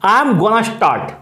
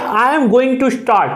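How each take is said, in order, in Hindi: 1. 'Going to' को जोड़कर 'gonna' बोला जाता है। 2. दोनों शब्द 'going to' पूरे बोले जाते हैं।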